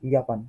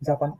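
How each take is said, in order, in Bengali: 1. শব্দটি 'y' ধ্বনি দিয়ে শুরু হয়। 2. শব্দটি 'j' ধ্বনি দিয়ে শুরু হয়। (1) "ইয়াপান করতে হবে" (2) "এটা কিন্তু জাপান"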